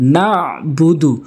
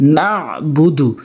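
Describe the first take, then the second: First: A throat consonant is pronounced in the middle. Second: A throat consonant is pronounced in the middle.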